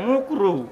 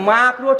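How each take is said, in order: First: The first vowel is an 'u' sound. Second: The first vowel is an 'a' sound. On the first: The word is blurred so people won't understand it. The speaker calls it wrong. "হুজুরে মুকরু বলে না ভাই" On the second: The word is said clearly so people understand it. The speaker calls it right. "মাকরু ঠিক ভাবে বলতে চায় না"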